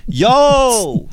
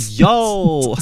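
First: A high, showy yo across the club; mock pickup yo. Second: Toned-down yo. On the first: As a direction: call yo like a cocky pickup line. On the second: Pretend. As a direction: try the yo again more casually. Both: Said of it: "I'll run this game on you".

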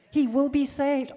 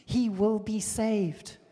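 First: Louder and higher repeat; emphatic repeat. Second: Said in the usual way. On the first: Shown as a demonstration. Preacher repeating the promise to the congregation, louder. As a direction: say it again with force.

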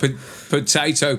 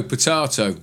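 First: "potato" with a long AY in the middle; first pronunciation. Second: "potato" with a broad AH in the middle; second pronunciation. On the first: Host contrasts two ways of saying it, "potato" as po-TAY-to. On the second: Host contrasts two ways of saying it, "potato" as po-TAH-to. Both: Shown as a demonstration.

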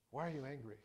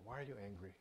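First: Said in the usual way. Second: Very soft, gentle asking; gentle soft question. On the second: Acted. God gently asking Cain why he is angry, softly. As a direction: ask it gently, like a caring father. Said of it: "he very gently asks him this question".

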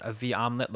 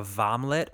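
First: Said in the usual way. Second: V omelet squashed into vomlet, one word; vomlet blended. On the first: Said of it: "a V omelet looks like a vomlet". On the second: Shown as a demonstration. A friend turning the sister's omelet gift into a vomlet. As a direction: run "V omelet" together as vomlet. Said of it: "looks like a vomlet".

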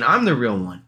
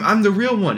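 First: Said in the usual way. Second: High, insistent mock plea; hammed-up desperate claim; first clone pleading. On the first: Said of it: "the other clone is saying". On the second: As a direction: insist urgently in a raised pitch. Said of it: "and they're like".

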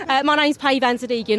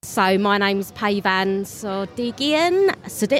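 First: Said in the usual way. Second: Slow, stumbling over the surname; tired guest tripping on own name; fumbled intro. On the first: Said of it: "Let me start that again". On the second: Real, not acted. Guest fumbles own name to interviewer, slow and tripping. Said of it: "I can't even say my own name".

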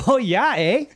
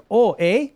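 First: Put-on Canadian accent. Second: Canadian accent. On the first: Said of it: "If it's a Canadian". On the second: Shown as a demonstration. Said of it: "Yeah, it's shorter".

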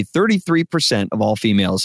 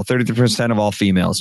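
First: Put-on evenly paced, each word kept apart for a child to repeat; clear model read. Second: Quicker, words run into one another; hurried repeat with no gaps between words; run together. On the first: Shown as a demonstration. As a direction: say it clearly as a line to copy. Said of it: "exactly as I want them to say it". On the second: Retold or imitated. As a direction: imitate a kid rushing the line. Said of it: "and run it together".

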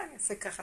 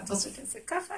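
First: Very soft, falling answer; hushed, submissive reply; acted compliance. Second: Higher, soft question; light, obliging asking; acted willing question. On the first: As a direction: murmur it obediently. Queen complying with the king. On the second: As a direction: offer softly, pitch rising on ככה. Queen asking what king wants.

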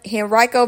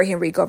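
First: Henrico said hen-RYE-co; Henrico, second syllable like rye; Henrico with long i. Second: Henrico said hen-REE-co; Henrico, second syllable like ree; Henrico with short i. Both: Shown as a demonstration. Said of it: "or Henrico".

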